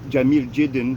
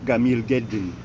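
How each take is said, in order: First: It is said with soft j sounds. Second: It is said with hard g sounds.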